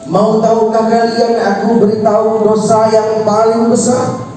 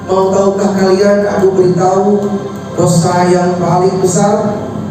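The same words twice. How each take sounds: First: The question is said at a slightly higher pitch. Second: The question is said at a normal pitch.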